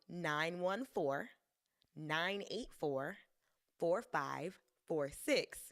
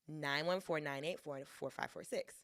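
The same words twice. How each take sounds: First: The digits are grouped with pauses between chunks. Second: The digits are rushed out without pauses. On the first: The number is easier to remember. The speaker calls it right. "isn't that going to be easier for you to remember?" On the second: The number is hard to remember. The speaker calls it wrong. "machine gunned those numbers at you"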